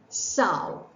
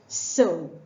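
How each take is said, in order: First: The vowel is 'ow', rhyming with cow. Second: The vowel is 'oh', rhyming with go. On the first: It names a female pig. "rhymes with cow" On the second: It means scattering seeds. "rhyming with girl"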